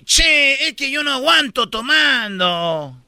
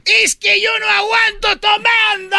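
First: Sing-song Argentine drawn vowels; Argentine accent. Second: Very high shouted Peruvian caricature; mock Peruvian accent. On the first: Acted. Argentine admits he can't hold drink, Argentine accent. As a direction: lilt it like an Argentine. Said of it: "en Argentina dice". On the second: Peruvian admits he can't hold drink, high Peruvian accent. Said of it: "En Perú".

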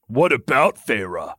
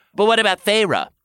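First: Amused comeback in character voice. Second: Worried question. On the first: Lucian answers the lover's worried question, amused. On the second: Tamlin raises a concern with the lover, worried question. First speaker worried, other amused. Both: A narrator's reading.

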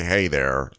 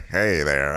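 First: Low "hey there" through numb lips; slurred "hey there"; numb mouth. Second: Low, slurred "hey there"; numb-lipped greeting; numb mouth. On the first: Shown as a demonstration. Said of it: "I'm about to say". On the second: Real, not acted. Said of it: "I feel like I'm about to say, "Hey there".

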